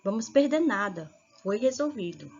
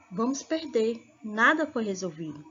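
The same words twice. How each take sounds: First: "perder nada" run together, break before "Foi resolvido"; pause after NADA. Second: "Vamos perder" closed off, then "Nada foi resolvido"; pause after PERDER. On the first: Teacher showing the moved comma, pausing between "nada" and "Foi resolvido". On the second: Teacher showing the comma, pausing between "perder" and "Nada". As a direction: break after "perder", start afresh on "Nada". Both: Shown as a demonstration. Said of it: "Olha a diferença".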